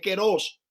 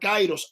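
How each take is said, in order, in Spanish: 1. La primera vocal es una 'e' simple. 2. La primera vocal es un diptongo 'ai'. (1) "es keros" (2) "kairos y no es kairos"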